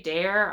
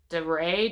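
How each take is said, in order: First: The surname is said as one syllable. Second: The surname is said with two syllables. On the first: The speaker calls it wrong. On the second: The speaker calls it right.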